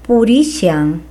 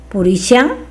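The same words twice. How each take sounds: First: The middle consonant is a plain h sound. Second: The middle consonant is an sh sound. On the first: This is the southern Quechua form. "En el quechua sureño, ¿no?, estas mismas palabras se pueden decir de la siguiente manera" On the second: This is the form used in some regions of Peru. "esta consonante se pronuncia con una S que se agrega, ¿no?, a la grafía H"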